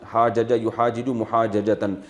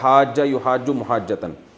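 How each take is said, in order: First: The repeated consonants are pronounced as separate sounds. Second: The repeated consonants are merged into one sound. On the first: This is the underlying full form of the words. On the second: This is how the words are actually read.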